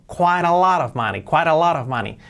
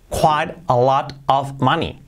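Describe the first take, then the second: First: Smooth American "Quite a lot of money", t's tapped; linked native. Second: "quite a lot of money" slow and separate, every t clearly released; careful unlinked "quite a lot of money" with hard t's; word by word. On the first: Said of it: "Hemos cambiado la T por la resuave". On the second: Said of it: "Está perfectamente pronunciado, pero nadie dice eso". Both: Shown as a demonstration.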